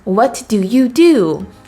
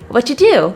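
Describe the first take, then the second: First: Each word is said separately and fully. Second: The words are reduced and run together. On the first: The speaker calls it wrong. "We would not say" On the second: The speaker calls it right. "it kind of sounds all conjoined"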